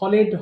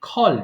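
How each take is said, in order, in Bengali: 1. শেষটুকু আলাদা একটি সিলেবল হিসেবে বলা হয়। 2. শেষটুকু জুড়ে গিয়ে একটি সিলেবল হয়।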